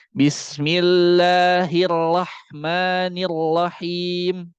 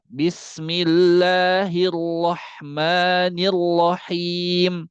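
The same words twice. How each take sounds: First: "Bismillahirrahmanirrahim" very slow with a thin ra; wrong thin ra. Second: "Bismillahirrahmanirrahim" very slow with a heavy, thick ra; correct thick ra. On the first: Teacher showing the mistake of a thin ra in basmalah. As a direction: draw out "Bismillahirrahmanirrahim", ra thin and light. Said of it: "Jangan sampai kayak gini". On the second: Teacher showing the correct thick ra in basmalah. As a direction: draw out "Bismillahirrahmanirrahim", ra full and thick. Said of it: "Tapi dibaca". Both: Shown as a demonstration.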